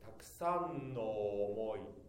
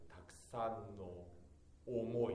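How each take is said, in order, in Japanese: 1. omoi の最初の母音は no に溶け込みます。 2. omoi の最初の母音は、はっきり言い直します。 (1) "思いの尾が前ののと同化しないように、たくさんの思いではなくて" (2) "少し言い直して発音し"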